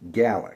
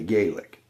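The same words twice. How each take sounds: First: It is said with a Scottish pronunciation. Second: It is said with an American pronunciation. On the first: "as they say in Scotland" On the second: "Here in the States we say Gaelic"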